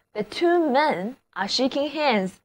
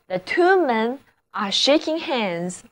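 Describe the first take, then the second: First: Slow and softer repeat; slow model reading. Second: Slow, careful example sentence; slow model reading. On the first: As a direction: repeat the sentence slowly for students. (慢速轻声重复例句) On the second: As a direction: read it out slowly for the class. (慢速示范例句) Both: Shown as a demonstration.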